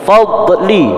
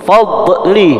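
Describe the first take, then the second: The two takes are said the same way.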